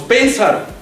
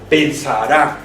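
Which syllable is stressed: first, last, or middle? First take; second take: first; last. First: The stress is on the first syllable. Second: The stress is on the last syllable. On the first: The speaker calls it wrong. "no decimos pensar" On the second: The speaker calls it right. "el sonido fonético está en la última sílaba"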